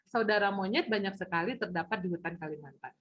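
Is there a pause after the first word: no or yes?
no. It is said flat and straight without a pause. "Nggak ada tanda baca, jadi datar lurus saja"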